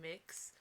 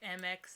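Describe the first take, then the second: First: It is one syllable with an 'ih' vowel. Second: It is spelled out as two letters. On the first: "some people say Mix" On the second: "some people say M X"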